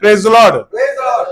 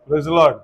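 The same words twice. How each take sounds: First: It is said loudly with lots of energy. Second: It is said softly with little energy. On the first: Saying it this way expresses joyful victory. The speaker calls it right. "तो हमें कैसे करना है?" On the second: Saying it this way would win no victory. The speaker calls it wrong. "Praise the Lord ऐसे बोल के तो यरीहो की दीवार तो नहीं गिरी होगी"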